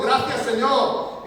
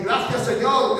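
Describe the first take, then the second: First: Gracias, Señor drawn out very slowly and raised; a poor man thanking God again, slowly and in awe; slow grateful thanks. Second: Raised, eager thanks; a poor man thanking God for the food that fell at his door, raised and eager; grateful cry. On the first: Slow, drawn-out gracias, Señor. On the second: Quick grateful outburst. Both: Retold or imitated. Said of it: "empezó a decir".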